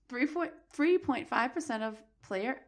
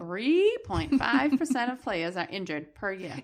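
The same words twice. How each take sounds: First: Slow, stumbling read with false start; halting stumble. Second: Slow, stretched "Three", then steady delivery; exaggeratedly deliberate. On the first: Host fumbling a statistic from the article, halting. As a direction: stall over "three point five percent". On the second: Host told to spit it out, exaggerated slow reading. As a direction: draw out "Three point five percent" emphatically. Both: Real, not acted. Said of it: "Spit it out".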